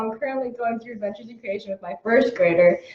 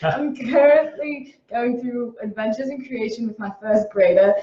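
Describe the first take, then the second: First: It is read in the speaker's regular voice. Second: It is read in a put-on Southern accent.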